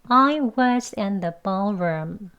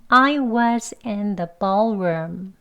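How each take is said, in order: The two takes are said the same way.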